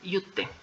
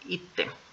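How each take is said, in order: First: The word begins with a 'yoo' sound. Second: The word begins with an 'ee' sound. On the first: The speaker calls it wrong. "No se va a pronunciar yute" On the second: The speaker calls it right. "se va a pronunciar ite"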